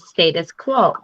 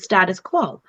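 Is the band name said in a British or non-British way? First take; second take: British; non-British. First: The name is said with a British pronunciation. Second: The name is said with a non-British pronunciation. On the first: "I'm going to say it the way he does because he was born in the U K" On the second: "so many people call them the status quo"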